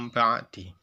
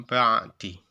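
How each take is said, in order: No difference in how they are said.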